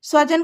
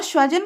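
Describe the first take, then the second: First: स्वजन with a clear dental s and v, svajan; correct svajan. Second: स्वजन said with sh, shvajan, meaning dog; mispronounced shvajan. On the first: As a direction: say स्वजन as s-va-jan, not sh. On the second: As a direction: start स्वजन with a palatal sh: shva-jan. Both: Shown as a demonstration. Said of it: "की जगह पर स्वजन का उच्चारण ना हो".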